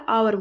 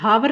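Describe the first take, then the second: First: The word starts with a vowel sound. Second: The word starts with an h sound. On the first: The speaker calls it right. "आवर बोला जाता है" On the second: The speaker calls it wrong. "ये हावर नहीं बोला जाता"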